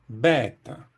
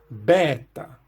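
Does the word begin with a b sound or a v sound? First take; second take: b; b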